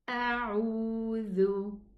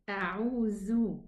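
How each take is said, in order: First: The middle consonant is a voiced th sound. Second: The middle consonant is a buzzing z sound. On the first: The speaker calls it right. "Touch the edge of the upper two teeth to pronounce the letter dhal" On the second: The speaker calls it wrong. "Otherwise, it's going to be pronounced za, a'udhu, and this is not correct"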